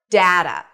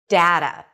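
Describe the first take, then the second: First: The first vowel sounds like the one in cat. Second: The first vowel sounds like the one in cat.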